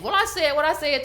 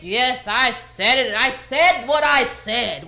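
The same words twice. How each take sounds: First: Said in the usual way. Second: Slow, louder, every word leaned on; mock defiant doubling down. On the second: Mimicking the woman who doubled down, mock defiant and slow. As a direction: imitate someone digging in, slow and emphatic. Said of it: "She was like".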